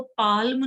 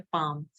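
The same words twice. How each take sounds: First: पाल्म with the L clearly sounded; पाल्म said the wrong way, L pronounced; wrong pronunciation shown. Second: पाम with a silent L, long open a; पाम said the right way, quietly and lower; correct pronunciation shown. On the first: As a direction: say पाल्म as pa-l-m, the L voiced. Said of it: "इसमें एल silent होता है". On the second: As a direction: say पाम as paam, no L at all. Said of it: "इसको पाम बोलते हैं". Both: Shown as a demonstration.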